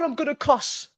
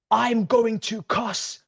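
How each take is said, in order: First: High, exasperated outburst; exasperated warning. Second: Drawn out word by word, higher pitched; slow, emphatic exasperation. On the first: Fan robbed of a goal, exasperated. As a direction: blurt it at a high pitch. Outraged at offside call. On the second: Fan repeating the threat, slowly exasperated. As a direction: spell out GOING TO slowly and fully. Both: Real, not acted.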